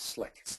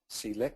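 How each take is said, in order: First: It starts with an 's' sound, one syllable. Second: It starts with the letter name 'see'. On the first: The speaker calls it right. "it's Slick" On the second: The speaker calls it wrong. "It's not C-lick"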